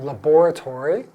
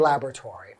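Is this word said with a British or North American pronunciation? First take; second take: British; North American. First: It is said with a British pronunciation. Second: It is said with a North American pronunciation. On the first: "In the U K, they pronounce it that way" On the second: "we say laboratory in North American English"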